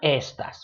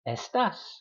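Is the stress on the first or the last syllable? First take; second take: first; last. First: The stress is on the first syllable. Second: The stress is on the last syllable. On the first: The speaker calls it wrong. "which is a different word" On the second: The speaker calls it right. "so you stress the A, not the E"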